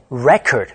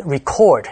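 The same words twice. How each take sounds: First: "record" stressed on the first syllable, REC-ord; noun stress. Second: "record" stressed on the second syllable, re-CORD; verb stress. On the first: Teacher explains in Chinese, "record" with first-syllable stress. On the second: Teacher explains in Chinese, "record" with second-syllable stress. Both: Shown as a demonstration. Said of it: "重音就跑到前面".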